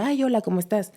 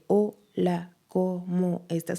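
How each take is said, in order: First: It is said in a natural, lively voice. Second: It is said in a flat, robotic voice.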